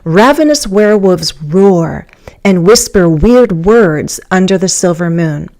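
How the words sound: The first pause comes after 'roar'. "You could do ravenous werewolves roar"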